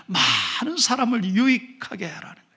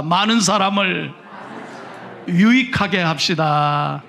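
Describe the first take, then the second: First: Said in the usual way. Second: Slow, firm lead line for the congregation to echo; slow call to repeat. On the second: Shown as a demonstration. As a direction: spell it out slowly so they can repeat. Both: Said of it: "한번 따라합시다".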